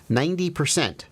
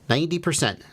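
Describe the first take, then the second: No difference in how they are said.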